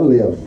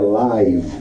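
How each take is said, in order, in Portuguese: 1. A vogal é curta, como em 'give'. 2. A vogal é longa, como em 'five'. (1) "então não é live" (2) "É live, quer dizer que aquilo está ao vivo"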